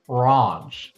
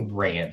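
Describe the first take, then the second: First: It is said with a British accent. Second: It is said with an American accent. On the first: "where she's British, ... She says ranch" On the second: "she can't say ranch"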